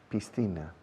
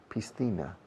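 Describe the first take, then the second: The two takes are said the same way.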